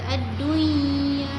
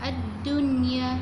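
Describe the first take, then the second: First: The n sound is merged into the y. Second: The n sound is pronounced clearly before y. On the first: The speaker calls it wrong. "tidak kata ad-dunya" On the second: The speaker calls it right. "sebut dia ad-dunya"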